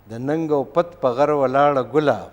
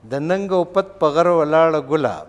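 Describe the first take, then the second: The two takes are said the same way.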